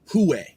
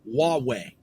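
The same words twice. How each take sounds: First: The name begins with an h sound. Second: The name begins with a w sound, like wah-way. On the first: The speaker calls it wrong. "I've heard it pronounced" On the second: The speaker calls it right. "it's technically pronounced Huawei"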